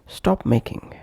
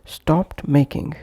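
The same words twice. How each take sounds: First: "stop making" with the t of stopped left out; linked, t dropped. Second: "stopped making" with a t after the p; full form. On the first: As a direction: run p straight into m in "stop making". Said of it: "and would become". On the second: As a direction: sound the final t of "stopped". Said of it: "pronounced as". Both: Shown as a demonstration.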